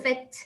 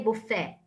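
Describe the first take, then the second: First: The final T sound is pronounced. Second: The final T sound is silent. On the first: The speaker calls it wrong. "we put the T, but we will not say buffet" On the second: The speaker calls it right. "We will say buffet. ... you don't pronounce the T"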